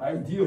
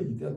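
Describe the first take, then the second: First: The word is said as eye-dee-uh. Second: The word is said as ee-deh-ah. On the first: "영어는 액센트 같은 거 아이디어 이렇게 말하거든" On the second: "유럽 발음은 이데아지"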